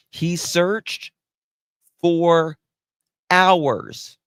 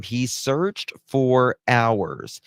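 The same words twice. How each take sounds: First: "He searched for hours" with "for" and "hours" hit hard, loud and high; mocking stress on hours. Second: Said in the usual way. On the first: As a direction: lean scornfully on "for hours". Sarcastic reread of article claim.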